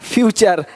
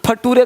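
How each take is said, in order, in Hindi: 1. बीच का व्यंजन 'ch' की आवाज़ है। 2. बीच का व्यंजन 't' की आवाज़ है। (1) "नहीं, नेचर, फ्यूचर" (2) "फटूरे नहीं बोलना"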